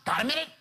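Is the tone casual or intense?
intense. It is said in a heavy, pressing tone. Something unwelcome is about to be pushed on the listener. The speaker calls it wrong.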